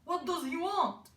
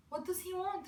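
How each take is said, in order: First: Higher, emphatic questioning voice; raised, changed voice for the elders; elders' puzzled question. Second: Higher-pitched questioning mother; mother's puzzled question. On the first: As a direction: ask it as the bewildered elders. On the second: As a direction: ask it lightly voiced as the mother. Mother's line in a story. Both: A narrator's reading.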